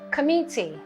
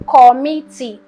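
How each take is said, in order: First: The first vowel is reduced to a schwa. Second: The first vowel is a full vowel. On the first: The speaker calls it right. "This is a schwa" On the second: The speaker calls it wrong. "it is not committee"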